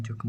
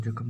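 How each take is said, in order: First: "जख्म" with k and m joined at the end; correct pronunciation demo. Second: "जख्म" said the faulty way, with a loosened final cluster; wrong pronunciation demo. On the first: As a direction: close "जख्म" on a tight final cluster. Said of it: "जख्म होता है". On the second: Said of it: "जख्म नहीं". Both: Shown as a demonstration.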